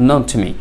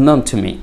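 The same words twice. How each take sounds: The two takes are said the same way.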